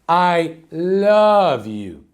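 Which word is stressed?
love. The stress falls on the word love. "emphasize in every different word of the sentence"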